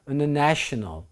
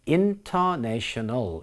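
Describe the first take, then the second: First: The unstressed vowels are reduced to a schwa. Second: Every vowel is pronounced fully and clearly. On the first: The speaker calls it right. "이렇게 발음합니다" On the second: The speaker calls it wrong. "이렇게 발음하지 않고요"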